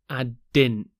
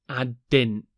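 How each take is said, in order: Both takes have the same delivery.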